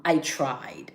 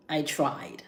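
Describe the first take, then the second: First: Said in the usual way. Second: A hushed whisper, almost breathless. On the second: Real, not acted. Repeating to viewers that she tried, whispered. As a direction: let it fall to a whisper.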